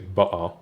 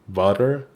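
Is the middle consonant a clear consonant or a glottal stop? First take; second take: glottal stop; clear consonant. First: The middle consonant is a glottal stop. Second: The middle consonant is a clear consonant. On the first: "they would say ba'a" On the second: "instead of butter"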